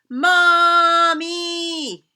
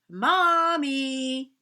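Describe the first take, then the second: First: It is yelled as loud as possible. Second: It is said a little louder.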